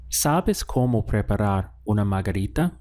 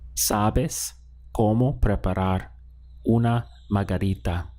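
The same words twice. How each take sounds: First: It is said with question intonation. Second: It is said with statement intonation. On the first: It asks whether someone knows how. "Let's ask this as a question now" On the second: It tells someone they know how. "How would you say you know how to prepare a margarita?"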